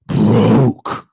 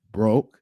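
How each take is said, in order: First: "broke" blasted out loud with an exaggerated opening; big, loud emphasis on "broke"; heavy emphasis. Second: Said in the usual way. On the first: Shown as a demonstration. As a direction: punch "broke" hard and stretch it out. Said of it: "when you put that emphasis". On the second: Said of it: "you can just say".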